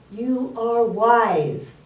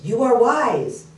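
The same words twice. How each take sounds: First: Very slow, raised-pitch call; acted dad calling to the echo; father calling out. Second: Slow, higher, louder echo; acted echo of the dad's call. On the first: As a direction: stretch each word out into the forest. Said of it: "And his dad said". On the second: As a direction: call it back slowly, drawn out. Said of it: "The voice goes".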